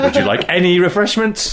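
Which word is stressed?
any. The stress falls on the word "any". "moving the emphasis down the sentence"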